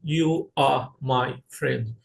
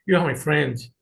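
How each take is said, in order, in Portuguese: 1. 'You are' é dito como duas palavras completas. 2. 'You are' é contraído em uma única sílaba. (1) "Você não vai falar" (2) "soa mais natural"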